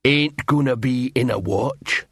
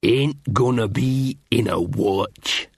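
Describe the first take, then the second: First: Slow troll voice, wavering upward; uncertain troll refusal. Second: Slow, heavy troll refusal; defiant troll. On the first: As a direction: refuse slowly, losing conviction. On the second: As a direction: refuse slowly, like a stubborn troll. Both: A narrator's reading. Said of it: "uncertainty modulated his tone".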